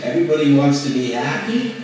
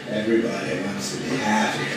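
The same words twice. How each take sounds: First: It sounds argumentative and challenging. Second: It sounds sultry and seductive. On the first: "And I could say to you contentiously" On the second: "Or I could say sexy"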